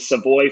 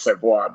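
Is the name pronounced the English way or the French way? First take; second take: English way; French way. First: The name is pronounced the English way. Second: The name is pronounced the French way. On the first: It suits someone who is not from Quebec. "because he's not from Quebec, we go with Savoy for him" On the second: It honors the family's French roots. "if we're being true to the roots, we should technically be calling Matt Savoy Matt Savoy"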